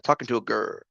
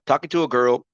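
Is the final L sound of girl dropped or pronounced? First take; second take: dropped; pronounced. First: The word is clipped, with no final L sound. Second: The word is said fully, with the final L sound. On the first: The speaker calls it wrong. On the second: The speaker calls it right.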